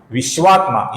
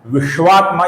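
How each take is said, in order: First: विश्वात्मा with the proper श sound; correct pronunciation. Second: विश्वात्मा with the wrong श sound; wrong pronunciation. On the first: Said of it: "ये सही उच्चारण है". (सही उच्चारण विश्वात्मा) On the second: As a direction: say विश्वात्मा the incorrect way. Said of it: "ये गलत होगा". (गलत उच्चारण विश्वात्मा) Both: Shown as a demonstration.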